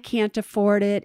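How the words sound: It is said in a pitiful, sorry tone. Not having the money is a sad, serious matter. The speaker calls it wrong. "you say it to them in such a way that's so pitiful"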